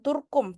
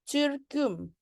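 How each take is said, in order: First: The vowels are plain back u sounds. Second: The vowels are fronted with rounded lips. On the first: The speaker calls it wrong. "bukan Turkum" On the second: The speaker calls it right. "tapi Türküm"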